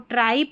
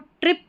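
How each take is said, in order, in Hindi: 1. स्वर लंबी 'eye' ध्वनि है। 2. स्वर छोटी 'i' ध्वनि है। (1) "इसको ट्राइप नहीं पढ़ना है" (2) "यहाँ पर इसको ट्रिप पढ़ना है"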